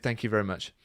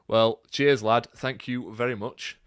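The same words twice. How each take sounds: First: Said in the usual way. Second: A light, attempted Yorkshire accent. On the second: Thanking a West Yorkshire viewer in a light Yorkshire accent. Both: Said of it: "That is my attempt at a Yorkshire accent".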